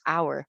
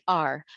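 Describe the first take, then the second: First: The word sounds just like the word hour. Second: The word sounds clearly different from hour. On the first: The speaker calls it wrong. "we Filipinos, we read this as our" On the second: The speaker calls it right. "it should be our"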